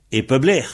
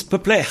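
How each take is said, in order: First: Peubler with a voiced B; correct B. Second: Peupler said with an unvoiced P, pitched up; mock Peupler with a hard P; wrong P. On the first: Shown as a demonstration. Teacher gives the correct Breton form. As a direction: say Peubler with a real B. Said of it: "Le P se prononce B". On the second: Teacher mimics néo-bretons' bad pronunciation. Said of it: "mauvaise prononciation".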